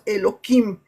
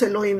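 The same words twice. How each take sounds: First: The word is said with that sound swapped out. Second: The word is said with the sacred letter's sound. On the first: This form avoids saying a letter that stands for God. "nosotros pronunciamos Elohim, para quitarle esa letra" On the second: This form is avoided out of respect for God. "nosotros no pronunciamos Elohim"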